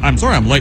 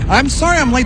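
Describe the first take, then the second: First: It is said casually, without much feeling. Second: It is said earnestly, with sincere feeling.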